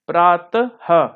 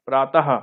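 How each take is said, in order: First: प्रातः slowly, broken as प्रात-ह; slow split model of प्रातः with breathed final ह; visarga demonstration. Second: Said in the usual way. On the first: Shown as a demonstration. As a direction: sound the ending of प्रातः as a separate "ha". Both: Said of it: "हा की तरह होता है".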